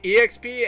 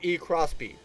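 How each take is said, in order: First: The middle symbol is read as the letter X. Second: The middle symbol is read as the word cross. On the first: The speaker calls it wrong. "stop calling it E X P" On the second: The speaker calls it right. "call it E cross P"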